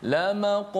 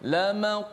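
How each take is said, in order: The two takes are said the same way.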